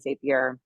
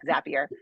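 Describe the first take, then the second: First: The name does not rhyme with happier. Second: The name rhymes with happier. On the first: The speaker calls it wrong. "I'm saying it wrong" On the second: The speaker calls it right. "Zapier makes you happier"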